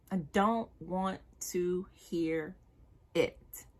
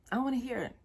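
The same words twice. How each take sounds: First: "I don't want to hear it" drawn out slowly, every word weighted; slow down and land each word; slow emphatic. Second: Said in the usual way. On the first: Shown as a demonstration. Telling men she won't hear excuses, slow and firm. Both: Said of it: "I don't wanna hear that shit".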